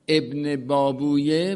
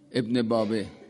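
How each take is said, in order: First: The name ends with 'babuyeh'. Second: The name ends with a short 'babeh'. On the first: This is the original Persian form. "ابن بابویه می شده ابن باب وی" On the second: This is how Tehran locals say it. "در تلفظ تهرانی میگن ابن بابه"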